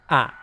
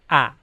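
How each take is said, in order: The two takes are said the same way.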